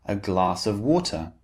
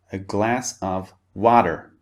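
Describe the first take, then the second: First: "a glass of water" with a crisp t in "water"; British "glass" and "water", t clearly released. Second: "a glass of water" with "water" as "wadder"; American vowel in "glass", d sound in "water"; American flapped T. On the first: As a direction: keep the t of "water" clear and distinct. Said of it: "the T sound is very clear and distinct". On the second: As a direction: turn the t of "water" into a d. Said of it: "In American English". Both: Shown as a demonstration.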